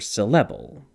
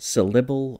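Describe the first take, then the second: First: The second syllable has an eh vowel. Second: The second syllable has an ih vowel. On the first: "or eh"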